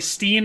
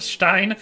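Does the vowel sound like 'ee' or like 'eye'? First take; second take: ee; eye. First: The vowel sounds like 'ee'. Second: The vowel sounds like 'eye'. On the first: It is the local Midwest way of saying it. "I use the Midwest vernacular" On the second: It is the original German way of saying it. "the original German"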